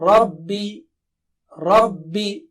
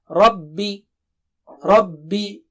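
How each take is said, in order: The two takes are said the same way.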